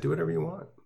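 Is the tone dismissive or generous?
generous. It sounds open and generous.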